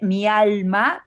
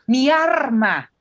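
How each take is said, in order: First: The middle consonant sounds like an l. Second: The middle consonant sounds like an r. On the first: "En lugar de decirte mi alma" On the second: "convierten las L's en R's"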